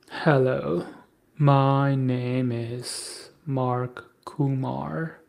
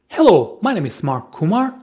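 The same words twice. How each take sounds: First: The voice is flat, dull and low in energy. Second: The voice is varied, lively and full of energy. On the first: The speaker calls it wrong. "this is the most boring tonality anyone else could do it" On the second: The speaker calls it right. "let me give you another example. Get ready for this"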